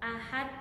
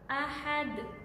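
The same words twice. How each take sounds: First: The final consonant is cut flat without bounce. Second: The final consonant ends with an echoing bounce. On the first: The speaker calls it wrong. "Bacaan yang salah misal ahad, ahad, tidak dipantulkan ya" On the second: The speaker calls it right. "cara membacanya yaitu ahad"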